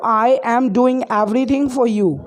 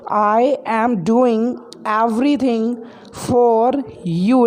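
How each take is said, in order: First: Said in the usual way. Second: Slow, word by word for learners; slow repeat. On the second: Shown as a demonstration. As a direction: spell it out slowly so students can follow. Teacher repeats sentence slowly for learners.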